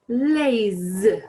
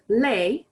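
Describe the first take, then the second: First: The word ends with a z sound. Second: The word ends without a z sound. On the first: "it's pronounced like the English Z" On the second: "instead of les"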